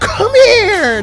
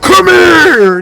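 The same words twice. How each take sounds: First: It is said softly with little intensity. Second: It is shouted with strong, deep intensity. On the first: This is how the line sounded in the film. The speaker calls it wrong. "not a come here. No, that that, that it sounds like weak piss" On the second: This is how the line should sound. The speaker calls it right. "I'm supposed to hear a come here"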